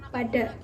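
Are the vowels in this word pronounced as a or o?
a. Both vowels are pronounced as an open a. This is the Tegal dialect form. "Dalam dialek Tegal tetap diucapkan pada, seperti pengucapan bahasa Indonesia"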